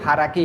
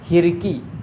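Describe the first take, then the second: First: The word is said as haraki. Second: The word is said as hirki. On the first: The speaker calls it right. "हाराकी यानी motor" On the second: The speaker calls it wrong. "हाराकी को क्या पढ़ते हैं अक्सर लोग"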